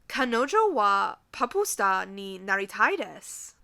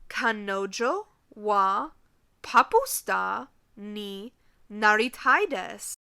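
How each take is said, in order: First: It is said at normal speed. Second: It is said slowly.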